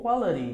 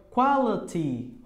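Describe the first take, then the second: First: QUALITY said "qualari", tapped T; R sound. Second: QUALITY ending in a clear "ti"; T pronunciation. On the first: ("quality" com som de R no final) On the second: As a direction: keep a true T in QUALITY. ("quality" com T bem pronunciado) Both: Shown as a demonstration. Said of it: "Pronunciando com o som de R".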